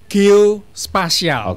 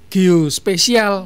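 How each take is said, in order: First: The middle syllable is said as 'spa'. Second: The middle syllable is said as 'spe'. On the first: The speaker calls it right. "Yang benar itu geospasial" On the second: The speaker calls it wrong. "ada yang bilang geospesial"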